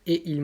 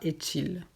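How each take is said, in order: First: The words are said separately, without a linking sound. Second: A linking t sound joins the two words. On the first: The speaker calls it right. "sans lier" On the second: The speaker calls it wrong. "On ne dit pas"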